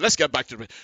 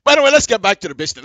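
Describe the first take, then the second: First: Said in the usual way. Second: Louder and very fast, snapping back on topic; loud, quick return. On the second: Real, not acted.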